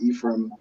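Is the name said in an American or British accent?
American. It is said in an American accent. "in America, you probably pronounce it"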